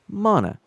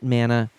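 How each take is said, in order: First: The first vowel is not the A of 'man'. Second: The first vowel is the hard A of 'man'. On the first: This is the way many others say it. "it's probably the more accurate way to pronounce it" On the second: This is the speaker's habitual way of saying it. "having it be the hard A made sense"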